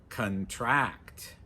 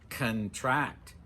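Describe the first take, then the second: Both takes have the same delivery.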